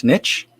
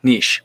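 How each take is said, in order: First: "Niche" said as "nitch", short i, ending in a ch sound; "Niche" rhymes with itch: nitch, questioning. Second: "Niche" rhymes with quiche: neesh, falling. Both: Shown as a demonstration. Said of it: "a pronunciation fest yesterday".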